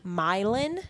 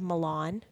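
First: It is said the local Missouri way. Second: It is said the Italian way. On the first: It names the town in Missouri. "we have a Milan, Missouri" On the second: It names the city in Italy. "Instead of Milan"

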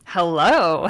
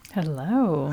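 First: The greeting sounds confident and bold. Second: The greeting sounds cautious and hesitant.

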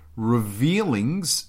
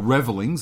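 First: The word begins like 'reveal', with a long vowel. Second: The word begins like 'revel', with a short vowel. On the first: The speaker calls it wrong. "There was no A" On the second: The speaker calls it right.

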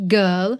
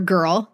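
First: The word is said in a British accent. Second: The word is said in an American accent.

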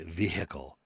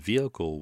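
First: The H sound in the middle is pronounced. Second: The H sound in the middle is dropped. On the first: The speaker calls it wrong. "They'll say vehicle" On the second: The speaker calls it right. "So you drop the H because it is silent"

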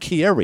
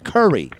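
First: The name begins with a 'keer' sound. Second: The name begins with a 'cur' sound. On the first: The speaker calls it wrong. "not Kyrie" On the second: The speaker calls it right. "It's Curry"

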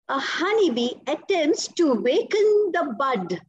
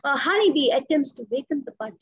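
First: The voice stays clear and strong to the end. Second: The voice fades softly toward the end. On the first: The speaker calls it right. "there clear till the end" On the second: The speaker calls it wrong. "I don't say"

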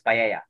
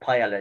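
First: The middle is said with a Y sound. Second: The middle is said with an L sound. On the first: The speaker calls it right. "it's paella" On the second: The speaker calls it wrong. "It's not paella"

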